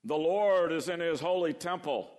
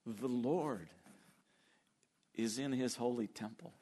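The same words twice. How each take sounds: First: Loud, distant and majestic; grand booming proclamation. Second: Intimate. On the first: Preacher booms the verse as the wrong picture. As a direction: proclaim it like a far-off king. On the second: Preacher rereads the verse gently as the right picture. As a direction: say it as of a near friend. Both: Shown as a demonstration. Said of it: "No, that's not the image at all".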